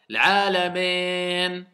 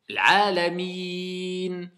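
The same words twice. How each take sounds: First: The final vowel sounds like 'eh'. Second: The final vowel sounds like 'ee'. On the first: The speaker calls it wrong. "Il y en a ils disent eh. C'est faux" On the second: The speaker calls it right.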